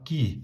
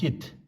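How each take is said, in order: First: The syllable ends on the vowel, without d. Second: The syllable ends with an audible d sound. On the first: This is how it is read today. The speaker calls it right. "We pronounce it" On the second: This is the older way of reading it. The speaker calls it wrong. "I heard some elderly Tamang people reading like this"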